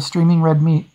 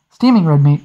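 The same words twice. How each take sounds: First: Streaming said with an r, a reading slip; streaming, read wrongly before the correction; misread word. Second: Steaming said with no r, the corrected reading; steaming, read right this time; corrected word. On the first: Narrator misreading the meat before correcting. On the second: Narrator correcting the misread word for the meat. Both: Real, not acted. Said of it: "steaming, not streaming".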